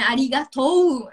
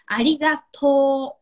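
First: The word ends with a separate u sound. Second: The word ends with a long, drawn-out o. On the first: The speaker calls it wrong. "Se você for escrever, tem o um u no final. Só que a gente não fala" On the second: The speaker calls it right. "esse to no final ele é mais prolongado"

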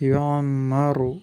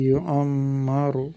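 No difference in how they are said.

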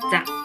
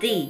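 First: The word sounds like 'za' with a short vowel. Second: The word sounds like 'dee' with a long vowel. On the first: "ザってこういう発音でいいのかな" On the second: "ザじゃないの？"

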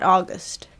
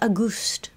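First: The name sounds like the month 'August'. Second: The name sounds like the words 'a goose'. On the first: The speaker calls it right. "not August" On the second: The speaker calls it wrong. "sometimes it sounded like she was just saying a goose"

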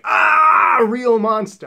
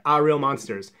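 First: The name is screamed loudly with excitement. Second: The name is said flatly and quietly. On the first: The speaker calls it right. "you're supposed to scream the name of this" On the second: The speaker calls it wrong. "the least enthusiastic way to pronounce the name"

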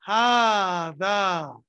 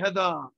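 First: The first vowel is long. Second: The first vowel is short. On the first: The speaker calls it right. "You say hada. Alif. Though you can't see the alif" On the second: The speaker calls it wrong. "You don't say hada"

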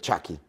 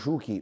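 First: The name is said in an American-style pronunciation. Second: The name is said in a Spanish-style pronunciation. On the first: This is the original form of the nickname. "ma lui in realtà sarebbe Chucky" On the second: This is how Spanish speakers call him. "lo chiamano Ciuchi perché gli spagnoli non hanno le pronunce americane"

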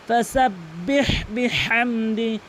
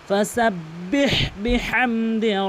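The two takes are said the same way.

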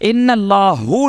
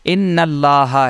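First: The word ends with an 'u' vowel. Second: The word ends with an 'a' vowel. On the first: The speaker calls it wrong. "इन्नल्लाहु नहीं पढ़ते हैं हम कहीं भी" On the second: The speaker calls it right. "इन्नल्लाह ही देखते हैं"

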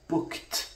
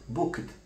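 First: The ending is a voiceless t sound. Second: The ending is a voiced d sound. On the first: The speaker calls it right. "the d here is devoiced by virtue of its occurring immediately after a voiceless segment" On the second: The speaker calls it wrong. "not booked"

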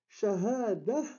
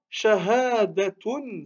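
First: The word ends on a vowel without t. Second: The word ends with a t sound and vowel. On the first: The speaker stops on the word. "on met à Sukun, si on s'arrête" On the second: The speech continues after the word. "si on continue"

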